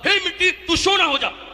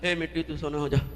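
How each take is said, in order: First: It is said with great enthusiasm. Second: It is said with little enthusiasm.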